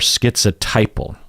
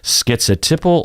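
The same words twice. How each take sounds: First: The third syllable has a long tie sound. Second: The third syllable has a short ti sound. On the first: "you will hear t or tie" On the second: "you will hear t or tie"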